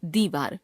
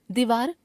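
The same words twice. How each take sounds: First: Said in the usual way. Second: दीवार with short इ, rising; wrong pronunciation. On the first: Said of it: "शुद्ध". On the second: Shown as a demonstration. Teacher showing a common error, दीवार with short first vowel. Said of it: "अशुद्ध".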